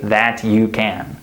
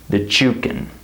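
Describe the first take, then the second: First: The T and Y are said separately. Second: The T and Y blend into a CH sound. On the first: The speaker calls it wrong. "We don't say that you can" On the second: The speaker calls it right. "A C H sound. This is reduction"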